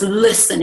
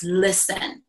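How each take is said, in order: First: "Listen," said firmly, falling at the end; a firm, insistent "Listen," like a command; firm serious listen. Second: A soft, grave "Listen." to draw her in; quiet serious listen. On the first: Friend demanding attention about the marriage, firm and serious. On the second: Friend quietly urging her to listen, hushed and grave. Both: Retold or imitated. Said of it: "I had never seen Ginger so serious".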